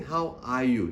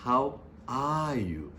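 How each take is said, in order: First: Said in the usual way. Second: "How are you?" said slowly and seriously with weight on each word; serious, emphasized. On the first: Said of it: "The second time you just ask seriously". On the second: Shown as a demonstration. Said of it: "emphasize this".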